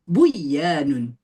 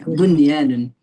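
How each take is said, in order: First: The n sound is merged into the y. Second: The n sound is kept clear before y. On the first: The speaker calls it wrong. "jangan mentang-mentang dan mati ketemu ya dan wau dibacanya" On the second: The speaker calls it right. "Bunyan. Iya, bunyanun"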